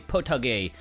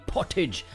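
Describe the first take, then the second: First: The word is said with a Japanese-style pronunciation. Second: The word is said with an English-style pronunciation. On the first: "knowing this is a Japanese snack I want to say" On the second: "My English Yorkshireman brain is saying"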